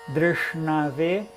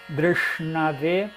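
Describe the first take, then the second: Both takes have the same delivery.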